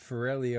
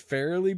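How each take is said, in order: First: The name is said with an Italian-sounding pronunciation. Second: The name is said with an Irish-sounding pronunciation. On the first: The speaker calls it wrong. "You're making it sound Italian" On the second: The speaker calls it right. "I believe that that's like an Irish name"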